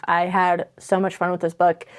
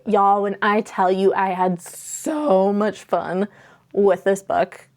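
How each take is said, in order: First: Said in the usual way. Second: "so" drawn out long and slow; stretched emphasis on so. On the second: Real, not acted. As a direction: lean into "so much fun", stretching "so". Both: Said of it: "I can't say it enough".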